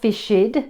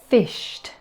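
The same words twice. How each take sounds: First: The ending adds an extra id syllable. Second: The ending is a plain t sound. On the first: The speaker calls it wrong. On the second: The speaker calls it right.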